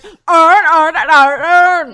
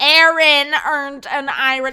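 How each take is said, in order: First: Booming exaggerated Baltimore accent. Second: Loud, distinct "Aaron earned an iron"; careful standard pronunciation. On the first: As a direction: blare it in thick Baltimore, all "urn". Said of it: "if you have a Baltimore accent". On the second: Shown as a demonstration. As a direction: enunciate each word of "Aaron earned an iron" separately, loudly. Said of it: "try to say this phrase".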